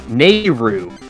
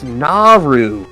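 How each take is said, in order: First: The name is read with an American-style vowel. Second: The name is read with a Japanese-style vowel. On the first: The speaker calls it wrong. "I used to read the book as uh" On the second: The speaker calls it right.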